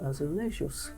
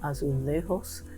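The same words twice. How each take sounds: First: It is said the Portuguese way, J voiced. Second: It is said the Spanish way, J not voiced. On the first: "In Portugal ... we pronounce the J here" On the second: "Spanish tile is called azulejos. ... they don't there"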